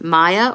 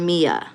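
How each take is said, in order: First: The first syllable sounds like 'my'. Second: The first syllable sounds like 'me'. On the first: "like M I" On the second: "M E"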